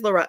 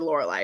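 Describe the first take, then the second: First: The name ends with an 'ee' sound. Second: The name ends with an 'eye' sound. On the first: This is how the audiobook pronounced it. "she's Lorelli in my head because I only listened to it" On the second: This is how some readers pronounce it in their heads. "if I called her Lorelai, I'd feel weird"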